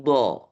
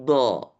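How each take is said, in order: The two takes are said the same way.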